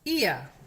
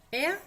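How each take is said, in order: First: "Ia" loud, i gliding into schwa; "ia" diphthong drill. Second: "ea" as e gliding into schwa; "ea" diphthong drill. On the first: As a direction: repeat "Ia" as one vowel glide, R silent. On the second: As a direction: repeat "ea" as one vowel glide, R silent. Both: Shown as a demonstration.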